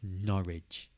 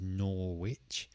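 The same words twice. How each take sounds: First: The ending sounds like 'ridge' with no w. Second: The ending sounds like 'wich' with a w. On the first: The speaker calls it right. "but it's just Norwich. No, Norwich, Ridge" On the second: The speaker calls it wrong. "Some people try to pronounce it as"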